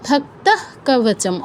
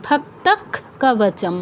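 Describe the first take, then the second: First: ভক্তঃ কবচম slowly, visarga a breathed half "h". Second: ভক্তক কবচম slowly, visarga turned into a stopped "kh". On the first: Teacher showing the expected rule, ভক্তঃ slowly ending in half h. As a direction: end ভক্তঃ on h without a vowel. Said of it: "অর্ধ হ". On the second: Teacher giving the correct chant, ভক্তক slowly ending in kh. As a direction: close ভক্তক hard on kh, no vowel. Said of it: "উচ্চারণটা হবে ক্ষয় হসন্ত". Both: Shown as a demonstration.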